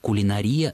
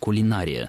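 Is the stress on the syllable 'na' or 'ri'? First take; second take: ri; na. First: The stress falls on the fourth syllable, ri. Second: The stress falls on the third syllable, na. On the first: It follows analogy with similar words. "это форма, которая более соответствует историческим, то есть подстраиванию под аналогию" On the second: It is the more traditional form. "более традиционная форма, связана с сохранением ударения в однокоренном слове «кулинар»"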